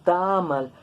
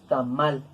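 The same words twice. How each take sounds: First: The stress is on the first syllable. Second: The stress is on the last syllable. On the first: The speaker calls it wrong. "No decimos tamal" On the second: The speaker calls it right. "pronunciamos tamal. Entonces terminada en L, aguda con prosódico"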